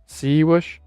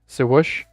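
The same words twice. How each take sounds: First: The second syllable has an 'uh' vowel. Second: The same.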